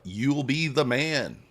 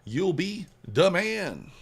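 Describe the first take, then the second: First: Hype. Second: Higher, louder and drawn out slowly, hyping the viewer up; a hammed-up hype shout for the chat; big hype call. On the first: Acted. Hyping viewers after code plug. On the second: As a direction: stretch it out like a hype man. Repeats hype line bigger.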